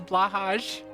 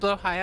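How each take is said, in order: First: The name sounds like 'blah-hahj'. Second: The name sounds like 'blow-high'. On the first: This is how most people say it. "But everyone says says Blahaj" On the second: This is the Swedish way to say it. "it's pronounced blow high"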